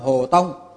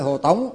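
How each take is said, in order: First: The last syllable has a level tone. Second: The last syllable has a rising tone. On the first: The speaker calls it right. "Cái chữ này đọc ra là Trung tâm Hồ Tông" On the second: The speaker calls it wrong. "chứ không phải Hồ Tống"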